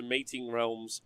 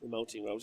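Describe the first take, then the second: First: "Mating Realms" read with a plain "mating", long a, no l; misreading it as "Mating Realms"; misread title. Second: "Melting Realms" with a clear l in "Melting"; fixing the misread title, quieter; corrected title. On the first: Host misreads the book title on stream as "Mating Realms". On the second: Host quietly corrects himself to "Melting Realms". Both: Real, not acted.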